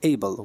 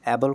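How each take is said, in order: First: The first vowel sounds like the vowel in day. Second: The first vowel sounds like the vowel in cat. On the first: The speaker calls it right. "এইবল বলতে হবে" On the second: The speaker calls it wrong. "এই বলের উচ্চারণ অ্যাবল করে অনেকেই অ্যাবল করা যাবে না"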